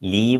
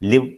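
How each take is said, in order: First: The vowel is a long 'ee' sound. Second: The vowel is a short 'i' sound. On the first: The speaker calls it wrong. "ലീവ് എന്നില്ല" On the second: The speaker calls it right. "ലിവ് എന്നേ ഉള്ളൂ"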